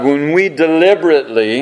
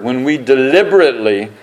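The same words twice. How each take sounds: First: Said in the usual way. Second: Deliberately said with weight; stress on deliberately. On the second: Shown as a demonstration. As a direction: press the word deliberately. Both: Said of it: "and I emphasize that word".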